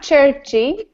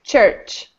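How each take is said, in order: First: The word ends with an added vowel sound. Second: The word ends cleanly without an added vowel. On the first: The speaker calls it wrong. "not churchy" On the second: The speaker calls it right. "just church"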